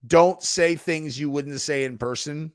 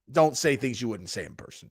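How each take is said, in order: First: Measured, emphatic slogan; quoted slogan. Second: Said in the usual way. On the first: Retold or imitated. Streamer quoting an online rule, emphatic. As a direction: say it like a stock rule, spelled out. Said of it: "I don't get too heavy on the".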